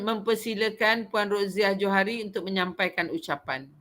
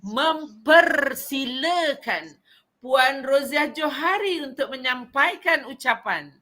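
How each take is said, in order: First: It is said flatly, with little intonation or energy. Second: It is said with lively intonation and feeling. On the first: The speaker calls it wrong. "Apa yang masalah dalam kata-kata saya tadi?" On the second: The speaker calls it right. "kalau intonasi dia"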